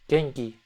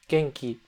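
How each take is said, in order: No difference in how they are said.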